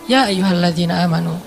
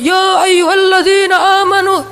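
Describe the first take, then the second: First: It is read softly and in a relaxed way. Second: It is read loudly, like shouting. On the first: The speaker calls it right. "tapi santai turunnya" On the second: The speaker calls it wrong. "Bukan dengan suara teriak. ... Padahal kadang ayat itu turunnya nggak gini"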